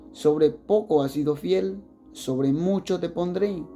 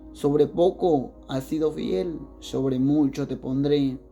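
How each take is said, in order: No difference in how they are said.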